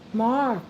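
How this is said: The name is called in a low, deep voice. "I have a low tone voice"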